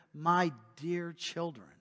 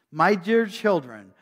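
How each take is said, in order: First: Softer, slow, tender address; tender pastor. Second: Said in the usual way. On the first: Retold or imitated. Pastor addressing his flock, soft and tender. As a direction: speak to them with a pastor's heart. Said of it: "with the heart of a pastor". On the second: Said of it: "read plainly within the passage".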